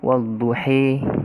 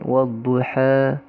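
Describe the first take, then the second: First: The final vowel is shifted fully toward 'e'. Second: The final vowel is halfway between 'a' and 'e'. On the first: "imalatul kubra al-idja wadduhi" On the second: "tapi dia ke antara fathah dan imalatul kubra"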